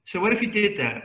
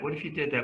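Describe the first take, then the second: First: "what" hit louder and higher in "So what if you did that?"; louder, higher opening challenge; emphatic challenge. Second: Said in the usual way. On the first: Shown as a demonstration. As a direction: challenge them, punching "what".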